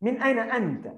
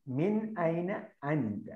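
First: Raised model reading. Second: Very slow, word by word, softer; slow repeat. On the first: Teacher modelling the Arabic question to students, raised and lively. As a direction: read the Arabic line up high, stressing ഐന. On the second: Teacher repeating the question slowly for students to follow. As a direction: spell out മിൻ ഐന അൻത slowly for copying. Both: Shown as a demonstration. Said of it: "അൽ മുദരിസ്".

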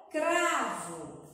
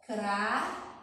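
First: Said in the usual way. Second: "cravo" split into cra and vo, long pause between; separando sílabas. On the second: Shown as a demonstration. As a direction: hold back the "vo" of "cravo". ("cravo" em duas sílabas, com pausa longa no meio) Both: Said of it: "vamos ter que separar as sílabas".

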